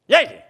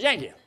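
First: Loud, high-pitched call of a name; insistent repeated call. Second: High-pitched call at ordinary volume; first call of a name. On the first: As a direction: call out sharply to someone who didn't answer. Wife calling again after no answer. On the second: Wife calling him, first call. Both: Retold or imitated.

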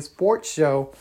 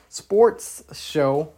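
First: Said in the usual way. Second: Sports show with the final S of "sports" hissed out clearly; stress on the S. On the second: Shown as a demonstration. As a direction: lean on the S at the end of "sports". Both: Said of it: "with an S at the end".

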